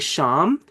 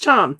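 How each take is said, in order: First: The word begins with an sh sound. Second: The word begins with a ch sound. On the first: "like in machine" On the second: "That's probably the most probable for the C H"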